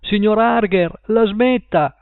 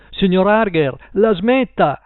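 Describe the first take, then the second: First: Even higher pitched shout to the neighbour; repeated shout. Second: Higher, louder cry through the wall; shout. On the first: Paul shouting again at Mr Harger. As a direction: call out again, more desperate. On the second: Paul shouting at Mr Harger through the wall. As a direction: shout to make them stop. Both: A narrator's reading. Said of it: "gridò".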